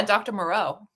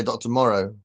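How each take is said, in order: First: Moreau said muh-ROH, stress at the end; "Doctor Moreau" the American way. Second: Moreau said as Morrow, in the British way; "Doctor Morrow", rhyming with sorrow. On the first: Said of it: "you say Doctor Moreau". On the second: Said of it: "I'd say Doctor Morrow". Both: Shown as a demonstration.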